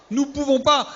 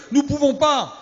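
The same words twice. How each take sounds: The two takes are said the same way.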